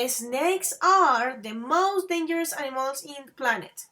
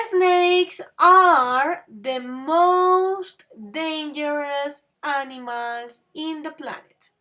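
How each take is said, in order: First: Said in the usual way. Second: Slowly, each word laid out for the class; slow model sentence. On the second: Shown as a demonstration. Teacher showing the superlative, slow and clear. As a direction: read it out slowly for learners. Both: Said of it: "So, look at this".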